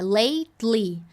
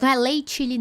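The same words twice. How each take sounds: First: "lately" as "leitli", the T going straight into the L; right lately. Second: Saying "lately" wrongly with a ch sound, like "létchili". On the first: Teacher showing the correct lately, T straight into L. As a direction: say "lately" with T into L and a smiling ee at the end. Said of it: "Do T você vai pro som do L". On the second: Teacher showing the wrong lately, with a ch sound. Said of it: "Cuidado, não é lately". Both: Shown as a demonstration.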